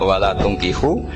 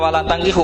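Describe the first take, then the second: First: The first vowel of the verb is u. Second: The first vowel of the verb is a. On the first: Guardians must not marry their daughters to polytheist men. The speaker calls it right. "harus dibaca bidomit" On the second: Believing men must not marry polytheist men. The speaker calls it wrong. "Tapi sekali dibaca walatangkihu maka kualitas maknanya itu terjadi"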